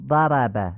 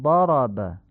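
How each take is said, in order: First: ضرب with Persian short a; Persian fatha. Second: ضرب with open heavy a; Arabic fatha. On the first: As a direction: say ضرب with a light front a. (ضرب با فتحهٔ فارسی) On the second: (ضرب با فتحهٔ عربی درشت) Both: Shown as a demonstration.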